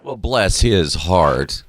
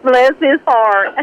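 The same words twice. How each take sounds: First: Slow, drawn-out Southern drawl. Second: Higher, drawn-out Southern drawl. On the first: Host echoing the guest's story, mock Southern drawl. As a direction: stretch each word like a Southerner. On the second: Guest echoing the host's joke, higher Southern drawl. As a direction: playfully stretch it out in Southern style. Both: Pretend. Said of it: "That's Southern".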